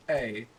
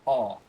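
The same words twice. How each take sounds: First: "a" as the letter name, AY; American A. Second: "ah" as a long open vowel; British A. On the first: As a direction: say "a" to rhyme with day. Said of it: "you don't say". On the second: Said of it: "you say". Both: Shown as a demonstration.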